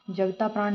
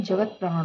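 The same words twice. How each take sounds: First: "जगता प्राण" with long "taa"; wrong long vowel. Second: "जगत प्राण" with jagat ending on t; correct bare t. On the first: Teacher rejects the mistake, long-aa "जगता प्राण". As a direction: say "जगता प्राण" as jagtaa-praan. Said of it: "नहीं होता है". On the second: Teacher gives the correction, vowelless t in "जगत प्राण". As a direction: close "जगत प्राण" first word on t. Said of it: "होता है". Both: Shown as a demonstration.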